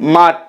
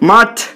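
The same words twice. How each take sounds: First: The final t is said without a breath puff. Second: The final t is said with a breath puff. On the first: "ঠ না বলে ট বলা হচ্ছে" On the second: "এক্ষেত্রে ঠটা মহাপ্রাণ ধ্বনি"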